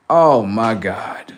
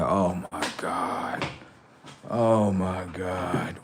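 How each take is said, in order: First: Loud, slow, drawn-out dismay; re-enacted loud exasperation; exasperated outburst. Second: Low, very slow, soft groan; re-enacted weary disbelief; exasperated dismay. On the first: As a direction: let the disbelief burst out, stretching each word. Brother's exasperation grows. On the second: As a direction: imitate a brother who can't believe it, dragging each word. Brother exasperated by the answer.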